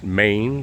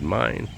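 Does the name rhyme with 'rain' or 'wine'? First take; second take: rain; wine. First: The name is said with an 'ay' vowel. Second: The name is said with an 'eye' vowel. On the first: Other people say the name this way. "Some pronounce it Maine" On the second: The family says the name this way. "we always did Mine"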